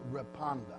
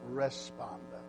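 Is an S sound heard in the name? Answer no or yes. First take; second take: no; yes. First: No S sound is heard in the name. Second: An S sound is heard in the name. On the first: The speaker calls it right. "You let the S is silent" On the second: The speaker calls it wrong. "they have on here pronounced Responda"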